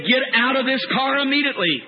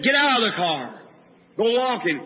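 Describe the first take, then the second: First: Firm, insistent order; commanding voice. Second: Even, restrained command; inner prompting. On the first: A heard voice orders the preacher out of the car, insistent command. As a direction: re-enact an urgent command, driving it through to the end. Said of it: "I heard a voice say". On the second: An inner something tells the preacher to leave the car, even command. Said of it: "something said". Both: Retold or imitated.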